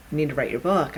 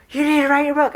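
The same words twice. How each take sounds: First: Said in the usual way. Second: High, loud, fed-up demand; exasperated yell. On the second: Acted. Universe tired of whispering to the writer, yelling. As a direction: yell it like patience has run out. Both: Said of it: "it was tired of whispering".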